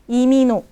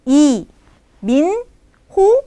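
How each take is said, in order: First: The syllables run together and h drops. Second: Each syllable is said separately without L. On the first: "kalau dibaca dengan natural Imino" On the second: "tapi I Min Ho"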